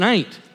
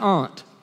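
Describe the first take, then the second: First: Aunt is said in his home dialect, rhyming with paint. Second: Aunt is said with a refined, broad vowel.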